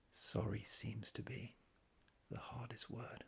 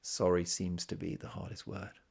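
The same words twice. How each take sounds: First: Breathy hushed whisper, slow and reverent. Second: Said in the usual way. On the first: Shown as a demonstration. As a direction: whisper the lyric as if awestruck. Lyric repeated in hushed take.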